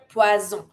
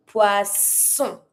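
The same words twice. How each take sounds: First: "poisson" said with Z, as "pwa-zon"; mistaken Z sound. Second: "Poisson" as "pwa-son", with a hissed double S; S sound. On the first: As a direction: voice the double S in "poisson" as Z. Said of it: "not the Z sound". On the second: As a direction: keep the SS in "Poisson" a clear S. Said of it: "S sound". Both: Shown as a demonstration.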